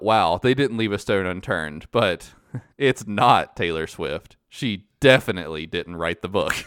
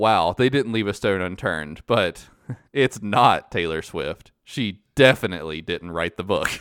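First: It is said in a convincing tone. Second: The same.

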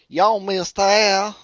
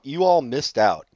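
First: It is said as one contracted word, y'all. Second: It is said as two full words, you all. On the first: The speaker calls it right. "say it like your normal person" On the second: The speaker calls it wrong. "Why'd you say it so funny?"

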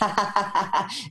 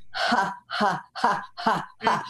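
First: The ha sounds are said fast, like a laugh. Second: The ha sounds are said slowly, one by one.

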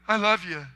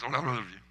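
First: It is said eagerly and openly. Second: It is mumbled quickly, like a throat-clear.

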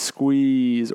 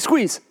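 First: The word is said slowly and drawn out. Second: The word is said quickly and sharply.

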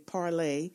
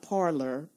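First: The word ends with an 'ay' sound. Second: The word ends with an 'or' sound. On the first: It follows the French word meaning to speak. The speaker calls it right. "I'll say parlay" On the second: It is the common everyday way of saying it. The speaker calls it wrong. "not parlor, but we call it parlor"

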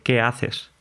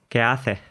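First: It is said in neutral Spanish. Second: It is said with an Andalusian accent.

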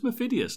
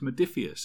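First: The P sound comes before the D sound. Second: The D sound comes before the P sound. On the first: The speaker calls it wrong. "I had my D and the P the wrong way around. I thought it was Modiphius" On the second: The speaker calls it right. "But it's not. It's Modiphius, isn't it?"

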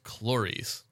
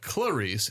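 First: The first syllable sounds like 'chlor' in chlorine. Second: The first syllable does not sound like 'chlor'. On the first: The speaker calls it right. "It's Clarice. ... Like chlorine in a pool" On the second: The speaker calls it wrong. "Not Clarice"

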